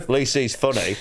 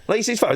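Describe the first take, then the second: First: Said in the usual way. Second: High-pitched jeering repeat; mocking echo. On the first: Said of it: "this older guy went". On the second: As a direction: parrot the heckler back at him. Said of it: "I went".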